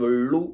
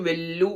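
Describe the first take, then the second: First: The l is a retroflex l. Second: The l is a plain dental l. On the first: "അല്ലെങ്കിൽ വെള്ളു എന്ന് പറയാതെ" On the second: "കൃത്യം വെല്ലു എന്ന് പറയാതെ"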